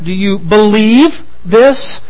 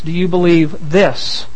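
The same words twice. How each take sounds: First: The stress falls on the word believe. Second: The stress falls on the word this. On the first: The question asks pointedly about real belief. "It's certainly a pointed question" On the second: The question asks precisely about these particular claims. "Being very precise"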